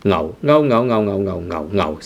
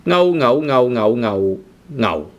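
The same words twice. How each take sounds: First: Ngao in low tone six, staying low. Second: Ngao said the incorrect way; wrong tone ngao. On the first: Teacher models the right tone for learners. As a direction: ngao kept low and level, the correct way. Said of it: "ngao is tone six". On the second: Teacher shows the wrong tone. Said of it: "which is actually wrong". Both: Shown as a demonstration.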